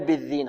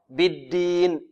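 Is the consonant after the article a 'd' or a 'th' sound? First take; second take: th; d. First: The consonant is a soft 'th' sound. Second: The consonant is a plain 'd' sound. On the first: The speaker calls it wrong. "لا يقول بالذين، خطأ" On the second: The speaker calls it right. "بالدين دال"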